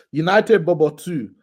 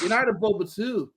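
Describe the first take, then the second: First: Put-on slowly announced in a Nigerian accent; mock Nigerian accent. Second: Higher, badly faked Irish accent; failed Irish accent. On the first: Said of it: "why do you put accent on that". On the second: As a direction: attempt Irish, slipping towards American. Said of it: "I can't do the Irish accent".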